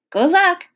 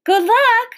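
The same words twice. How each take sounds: First: Raised, louder farewell call. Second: High, loud call from another room; called from afar. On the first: Gloria to girl and preacher leaving the porch, calling out. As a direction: call good luck after them. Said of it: "she called". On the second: Librarian to searchers from the kitchen, calling high and loud. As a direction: holler good luck from the kitchen. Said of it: "Miss Franny called from the kitchen". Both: A narrator's reading.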